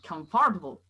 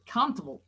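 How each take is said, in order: First: The word is said with more syllables. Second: The word is said with fewer syllables. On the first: The speaker calls it wrong. "kita bikin jadi tiga syllables" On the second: The speaker calls it right. "dia cuma punya satu syllable"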